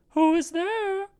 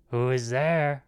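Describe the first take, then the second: First: Very high, thin falsetto granny; old grandmother. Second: Lightly voiced wolf, near the narrator's own pitch; wolf calling out. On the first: Old grandmother speaks from bed. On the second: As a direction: call out as the wolf, only slightly put on. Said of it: "called out the old wolf". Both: A narrator's reading.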